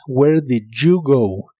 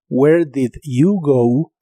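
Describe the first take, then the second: First: The d and y blend into a j sound. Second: The d and y sounds stay separate. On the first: "vas a escuchar muchas veces" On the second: "Es correcto decir"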